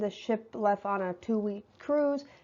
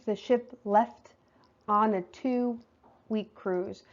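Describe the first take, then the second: First: It is said at a normal, casual conversational pace. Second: It is said slower, louder and with careful articulation. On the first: "normal conversation" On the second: "Clear speech"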